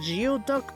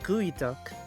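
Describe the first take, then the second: First: It begins with the sounds gee-oh. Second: It begins with the sound gooey. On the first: The speaker calls it wrong. "the spelling looks like geoduck, but no" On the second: The speaker calls it right. "it's gooey duck"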